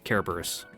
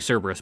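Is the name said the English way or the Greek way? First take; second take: Greek; English. First: The name is said in the Greek way. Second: The name is said in the everyday English way. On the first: "technically it would be Cerberus. But Greek pronunciation aside" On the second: "I'm saying Cerberus"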